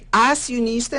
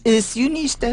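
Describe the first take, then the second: First: The first vowel is said open. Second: The first vowel is said closed. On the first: The speaker calls it right. "Obviamente que abre" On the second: The speaker calls it wrong. "nós nunca dissemos acionista"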